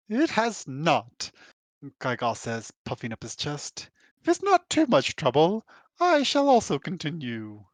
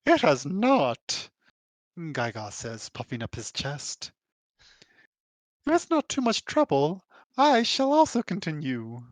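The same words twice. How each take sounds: First: Slow, haughty British drawl; lightly done British drawl. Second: Slow puffed-up voice; lightly voiced proud scholar; Gaiga voice. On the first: Acted. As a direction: drawl it like a pompous British gentleman. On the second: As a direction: puff up and speak slowly. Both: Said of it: "Can I do a British drawl?".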